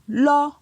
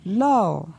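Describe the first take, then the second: First: The syllable is said on a high tone. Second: The syllable is said on a falling tone. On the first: "Pour un ton haut" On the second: "Et pour un ton descendant"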